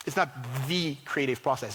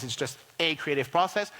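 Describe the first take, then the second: First: "the" stressed and said as "thee". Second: "a" stressed and said as "ay". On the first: Speaker qualifying a method for the audience, stressed "the". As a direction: lean on "the", pronounced "thee", to mark the one and only. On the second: Speaker correcting the claim for the audience, stressed "a". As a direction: lean on "a", pronounced "ay", to mean one of many. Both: Shown as a demonstration.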